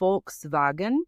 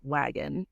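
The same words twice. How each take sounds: First: The word begins with an F sound. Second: The word begins with a V sound. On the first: The speaker calls it right. "it's technically Volkswagen" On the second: The speaker calls it wrong.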